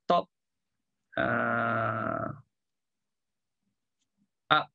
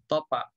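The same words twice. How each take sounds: First: The words are said apart with a stop between. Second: The p runs straight into the next word. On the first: "Daripada top ujung dah bibir pun top up. Agak susah kan?" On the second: "Biasa orang sebut apa?"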